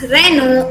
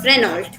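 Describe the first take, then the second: First: The final T sound is silent. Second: The final T sound is pronounced. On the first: The speaker calls it right. "the last L T sound is silent and it's pronounced as Renault" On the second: The speaker calls it wrong. "instead of"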